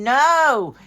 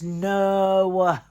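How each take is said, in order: First: The word ends cleanly on its vowel. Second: The word ends with an extra 'wa' sound. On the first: "Instead of saying no" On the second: "Put that wa at the end"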